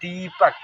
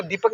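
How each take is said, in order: First: दीपक with a lingering "deee"; long held i. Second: दीपक rushed, with the first vowel short; wrong short i. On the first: Teacher correcting the reading, vowel held long. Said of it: "वहाँ पे देर तक रुकना है". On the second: Teacher showing how not to read it, vowel clipped. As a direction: clip the "dee" of दीपक to "di". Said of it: "नहीं पढ़ेंगे". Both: Shown as a demonstration.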